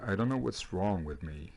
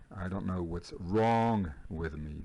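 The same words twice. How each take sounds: First: Said in the usual way. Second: Slow repeat. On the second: Shown as a demonstration. Répète lentement pour les élèves.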